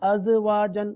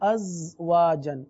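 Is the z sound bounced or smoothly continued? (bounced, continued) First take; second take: bounced; continued. First: The z sound is cut with an echoing bounce. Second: The z sound flows on without a bounce. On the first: The speaker calls it wrong. "تو یہ قلقلہ ہو گیا، قلقلہ کرنا نہیں ہے" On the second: The speaker calls it right. "زا پر قلقلہ نہیں کریں گے بلکہ آواز کو جاری کرتے ہوئے"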